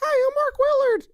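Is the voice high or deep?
high. It is said in a high, boyish voice.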